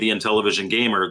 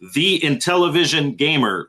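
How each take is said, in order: First: The words are slurred together quickly. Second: The words are spaced out clearly.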